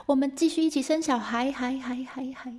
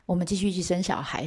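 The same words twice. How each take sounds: First: High call fading into echoes; echoing cave call. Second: Said in the usual way. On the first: Acted. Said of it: "有回音哦".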